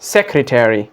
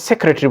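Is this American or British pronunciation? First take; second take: American; British. First: American accent, the ending said as full 'terry'. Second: British accent, the ending reduced to 'tree'. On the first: "लेकिन American वाले ये कहते हैं" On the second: "British में हम इसको सेक्रेटरी बोलते हैं"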